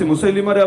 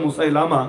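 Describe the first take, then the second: First: The third syllable has an 'i' vowel. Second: The third syllable has an 'a' vowel. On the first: This is the name's original form. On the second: This is how people in Bangladesh say it.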